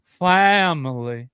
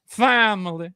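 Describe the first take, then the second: First: Slow, drawn-out mock of the coach's grating voice; Brian Kelly catchphrase. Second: Higher, punchier "Family" in a light Brian Kelly imitation; Brian Kelly catchphrase. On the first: Podcast host mocks Brian Kelly's catchphrase for his cohost, slow drawn-out imitation. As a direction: stretch "Family" out lazily like Brian Kelly. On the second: Host repeats Brian Kelly's catchphrase to tease him, higher light imitation. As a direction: toss off "Family" a bit higher, mocking the coach. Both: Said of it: "his voice sounds... it's just grating".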